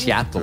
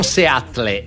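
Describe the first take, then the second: First: The name is said with an American pronunciation. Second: The name is said with a non-American, Italian-style pronunciation. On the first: The speaker calls it right. "si dice no. Seattle" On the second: The speaker calls it wrong. "Non Seattle"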